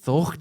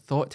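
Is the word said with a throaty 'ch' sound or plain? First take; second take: throaty ch; plain. First: The word has a throaty 'ch' before the 't'. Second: The word ends with a plain English 't' sound. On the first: The speaker calls it right. "the way you say it here is like you'd say thocht" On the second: The speaker calls it wrong. "everyone reads it as like"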